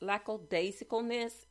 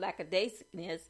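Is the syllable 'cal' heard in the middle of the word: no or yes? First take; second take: yes; no. First: The word is said with the 'cal' syllable. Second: The word is said without the 'cal' syllable. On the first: The speaker calls it right. "so I did the second time around" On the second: The speaker calls it wrong. "did I pronounce that word right?"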